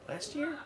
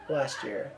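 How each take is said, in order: First: "Last year?" softly with rising pitch; self-doubting question. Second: Said in the usual way. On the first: Real, not acted. Speaker second-guessing the album's date, soft rising question on "Last year?". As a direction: lift "year" high and quiet, unsure. Doubts herself, then corrects.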